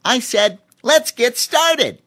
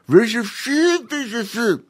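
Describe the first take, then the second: First: High, loud, slow and clear; clearly spoken chimp. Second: High chimp mumbling with a mouthful; mumbled through brush. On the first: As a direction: repeat it clearly now the brush is out. Voices Cheemy, clear take. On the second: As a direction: talk with a brush in your teeth. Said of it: "mumbled Cheemy". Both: A narrator's reading.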